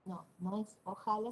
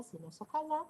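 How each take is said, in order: First: Said in the usual way. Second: Ojalá más agudo y alto en la última sílaba; acento en ojalá. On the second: Shown as a demonstration. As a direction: marca el acento final de ojalá. (ojalá con acento agudo)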